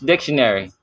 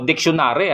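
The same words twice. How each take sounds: First: It is said with an English pronunciation. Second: It is said like a Filipino word. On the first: "ang pag-pronounce niyan is dictionary" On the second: "para bang kung anumang salitang Pilipino"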